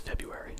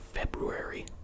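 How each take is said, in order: First: The first R sound is left out. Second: The first R sound is clearly pronounced. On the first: This is how everyone normally says it. "Everyone says February" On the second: It is said this way only to remember the spelling. "The only reason you pronounce it February is to remember how it's spelled"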